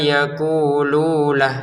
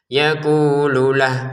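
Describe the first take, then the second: First: The lu vowel is held long. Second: The lu vowel is kept short. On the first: The speaker calls it wrong. "Jangan dibaca fa innama yaqululah" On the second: The speaker calls it right. "lu-nya ini pendek ya"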